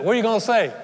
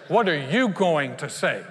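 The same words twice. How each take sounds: First: Loud, raised-pitch challenge; high, punchy quick question; Jesus. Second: "you" leaned on, slow and loud; stress on YOU. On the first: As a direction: put the question insistently. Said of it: "This is Jesus. He said". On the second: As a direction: put the weight on "you", slowly. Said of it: "I know what I'm gonna say". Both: Acted.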